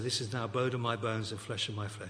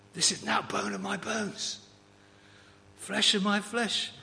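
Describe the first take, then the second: First: It is said in a quiet, measured way. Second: It is said with excited exuberance.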